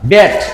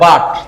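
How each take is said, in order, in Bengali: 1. স্বরধ্বনিটি সামনের দিকের 'ya' এর মতো। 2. স্বরধ্বনিটি সাধারণ খোলা 'a' ধ্বনি। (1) "আমরা তো বাট বলিনি" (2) "আমরা যদি বলতাম বয়াকার ট বাট"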